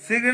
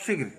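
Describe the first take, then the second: First: शीघ्र with a long ee; correct pronunciation. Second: शीघ्र very short, clipped i; wrong pronunciation. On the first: Teacher correcting the slip, correct pronunciation. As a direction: hold the vowel of शीघ्र. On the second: Teacher showing the slip, wrong pronunciation. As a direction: say शीघ्र with a quick short vowel. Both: Shown as a demonstration. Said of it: "शीघ्र नहीं".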